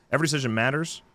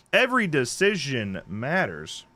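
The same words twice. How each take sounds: First: "Every decision matters" in one quick run, lifting at the end; quicker tagline repeat. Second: "Every decision matters" drawn out slowly, falling at the end; dramatic tagline. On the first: Host repeating the tagline once more, "Every decision matters" quick and rising. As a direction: say "Every decision matters" briskly, ending on a rise. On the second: Host reading a horror game's tagline, "Every decision matters" slow and dramatic. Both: Acted.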